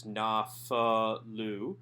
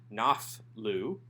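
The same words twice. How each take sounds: First: Slow nafalu, na-fa-lu in three open syllables; nafalu with vocal schwa. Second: Slow naflu, schwa dropped, two syllables; wrong naflu. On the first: Teacher models nafalu slowly for students, said in three clear syllables. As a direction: sound out nafalu with the schwa voiced. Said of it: "we have a vocal schwa under the pei". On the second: Teacher contrasts the wrong form naflu, schwa dropped. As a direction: say the mistaken naflu slowly. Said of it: "not naflu". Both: Shown as a demonstration.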